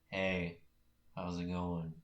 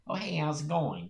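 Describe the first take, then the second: First: It is said in a calm, plain voice. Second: It is said with a typical Midwestern accent.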